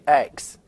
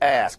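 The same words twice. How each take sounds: First: The k sound comes before the s. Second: The s sound comes before the k. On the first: The speaker calls it wrong. "People say" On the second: The speaker calls it right. "the word is ask"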